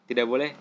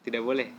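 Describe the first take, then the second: The two takes are said the same way.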